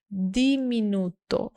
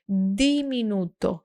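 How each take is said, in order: First: The first consonant is a soft d. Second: The first consonant is a soft d.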